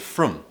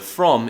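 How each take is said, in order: First: The vowel is reduced to a quick schwa. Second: The vowel is a full, clear vowel. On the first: "is becoming frum because we want to say it fast" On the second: "the word from"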